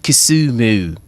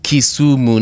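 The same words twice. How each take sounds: First: The name is said with a British-sounding accent. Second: The name is said with a Kenyan accent. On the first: This is how someone who moved abroad now says it. The speaker calls it wrong. "not Kisumu" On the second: This is how people at home say it. The speaker calls it right. "it's Kisumu"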